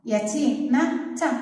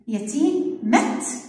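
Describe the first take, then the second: First: The final t is followed by an a vowel. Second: The final t has no vowel after it. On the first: "يلا خلينا نجيب الإت الكبيرة" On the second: "الإت اللي عليها السكون"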